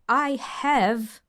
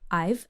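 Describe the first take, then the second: First: Both words are said in full. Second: The two words are contracted into one. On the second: "I have is reduced to just I've"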